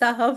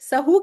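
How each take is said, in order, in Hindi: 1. शब्द का अंत 'w' व्यंजन ध्वनि से होता है। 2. शब्द का अंत लंबी 'oo' स्वर से होता है। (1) "सहव होता है" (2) "सहू कहते हैं लोग, लेकिन गलत है"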